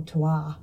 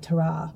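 First: "terroir" said properly, the French way, as tair-WAHR; French-style "terroir", ending in a "wahr" sound; proper French pronunciation. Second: Said in the usual way. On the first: Shown as a demonstration. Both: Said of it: "if you're gonna say it properly".

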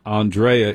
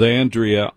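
First: Andrea said "ahn-DRAY-uh"; pretentious pronunciation. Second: Said in the usual way. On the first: Shown as a demonstration. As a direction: stress the middle of Andrea, as DRAY. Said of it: "How pretentious are you?". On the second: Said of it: "is it Andrea or Andrea".

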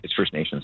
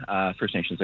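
First: Says "First Nation" with no final s; singular Nation. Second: Says "First Nations" with a final s; "First Nations" ending in an s sound; plural Nations. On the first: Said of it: "no, it's not, it's First Nation". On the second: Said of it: "I should say, uh, no, it's not, it's First Nation". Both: Real, not acted.

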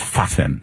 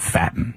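First: Put-on Fatin with an open "ah", fah-TEEN style; mock-careful Fatin, open first vowel; careful pronunciation. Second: Fatin said like the English word "fatten"; anglicised mispronunciation. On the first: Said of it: "that's gotta be pronounced". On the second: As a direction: say Fatin with a flat "a" as in fat. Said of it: "It's not". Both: Shown as a demonstration.

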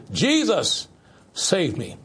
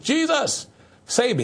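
First: Said in the usual way. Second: Jesus cried out much higher, save me still high and pleading; fervent cry. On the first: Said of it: "Just say this". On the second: Shown as a demonstration. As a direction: call out to Jesus with urgency. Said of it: "Just say that".

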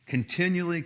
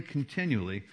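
First: Continually lifted and stressed, pitched up; emphatic repetition. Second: Continually said softly and falling away; trailing repetition. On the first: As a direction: lean into "continually" to hammer it home. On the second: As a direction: let the last "continually" fade down. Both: Shown as a demonstration. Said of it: "three times it talks about continually".

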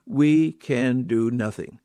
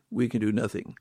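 First: Slow and weighty, each word set down; slow emphatic. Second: Dropped softer, like an afterthought; quiet echo. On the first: Preacher telling friends they can do nothing without him, slow and weighty. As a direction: let it land slowly, word by word. Preacher stresses dependence on Christ. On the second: Preacher echoing his point to the congregation, softly. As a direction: repeat it softly, almost to yourself. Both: Real, not acted.

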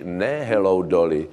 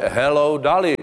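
First: "Dolly" with a Czech o, like doly; "Dolly" with a plain rounded o; wrong Czech pronunciation. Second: "Dolly" with an open a, like Dali; "Dolly" with English open vowel; correct English pronunciation. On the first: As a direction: say "Dolly" as the Czech word for mines. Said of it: "to nás upozorňoval vždycky náš profesor pohybovky". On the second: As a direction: say "Dolly" as "dah-lee". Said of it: "to říkáte pozdrav ostravsko-karvinským uhelným dolům". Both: Shown as a demonstration.

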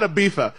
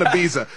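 First: Ibiza the Castilian way, z as th. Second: Ibiza the English way, with a buzzing z. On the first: Host rejects the try-hard Ibiza, said with th. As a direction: turn the z of Ibiza into a th. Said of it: "not Ibiza". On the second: Host refuses the try-hard way, Ibiza with a plain z. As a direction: say Ibiza with no th, just a z. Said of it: "I'm not doing that". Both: Shown as a demonstration.

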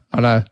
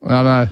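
Both takes have the same delivery.

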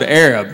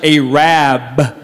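First: "Arab" said as AIR-ub, stress first; standard pronunciation. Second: "Arab" said slowly as AY-RAB; local pronunciation. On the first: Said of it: "They don't pronounce it". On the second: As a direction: stretch "Arab" into two long beats, AY-RAB. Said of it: "They pronounce it". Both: Shown as a demonstration.

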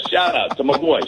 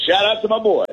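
First: Excited shout-out. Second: Higher, pumped repeat of the shout-out; bigger shout-out. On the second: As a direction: hype it up for your buddy. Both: Shown as a demonstration.

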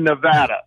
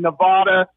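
First: Nevada as neh-VAD-uh; flat "a" as in mad in Nevada; Nevada with short A. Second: Nevada as neh-VAH-duh. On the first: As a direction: say Nevada with VAD rhyming with dad. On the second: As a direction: open "ah" in the middle of Nevada. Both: Shown as a demonstration. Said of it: "it's controversy".

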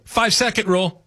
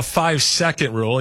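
First: Higher-pitched announcement of "Five-second rule"; "Five-second rule" declared on a raised pitch; calling out a rule. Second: Said in the usual way. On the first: Acted. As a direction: invoke "Five-second rule" like a quick timeout call. Acts out invoking the rule.

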